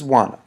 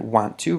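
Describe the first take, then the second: First: The words are run together into one reduced form. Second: Both words are said fully and separately. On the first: It is the more informal style. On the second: It is the more formal style.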